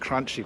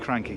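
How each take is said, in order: First: The name sounds like the word 'crunchy'. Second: The name sounds like the word 'cranky'. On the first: The speaker calls it wrong. "I always call them crunchy, but they're not" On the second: The speaker calls it right. "It's supposed to be cranky"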